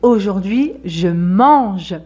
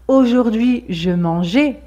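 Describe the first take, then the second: First: The final e is weak or silent. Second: The final e is said as a full vowel. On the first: It is the present tense. The speaker calls it right. "c'est aujourd'hui je mange" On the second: It could sound like a past tense. The speaker calls it wrong. "ce n'est pas aujourd'hui je mangeais"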